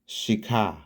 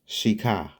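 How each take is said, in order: First: The name is said as 'Shika'. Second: The name is said as 'Shika'.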